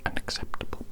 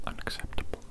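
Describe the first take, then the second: No difference in how they are said.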